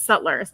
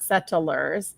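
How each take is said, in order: First: "Settlers" said in two syllables, SET-lers; "Settlers" said crisply as SET-lers; correct pronunciation. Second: "Settlers" drawn out slowly in three syllables, SET-uh-lers; "Settlers" stretched slowly to SET-uh-lers; wrong pronunciation. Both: Shown as a demonstration. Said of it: "not Settlers".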